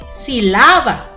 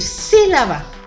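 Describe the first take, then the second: First: The stress is on the second syllable. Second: The stress is on the first syllable. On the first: "la sílaba más fuerte es ahí en la A donde la estoy poniendo" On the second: "ya no va a decir sílaba"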